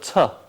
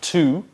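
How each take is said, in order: First: The vowel is weak and reduced. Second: The vowel is full and clear. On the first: The speaker calls it right. "unstressed. It's a soft sound" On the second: The speaker calls it wrong. "we don't say to"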